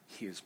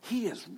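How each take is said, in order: First: It is said in a subdued, held-back way. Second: It is said loudly with full energy. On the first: The speaker calls it wrong. "you can't say it like this" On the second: The speaker calls it right. "you have to let it go"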